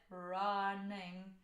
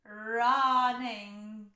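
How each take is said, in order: First: The vowel sits far back in the mouth. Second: The vowel sits bright and forward in the mouth. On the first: "it almost goes back to the, the back of your mouth" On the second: "brighter and further forward and higher in your mouth"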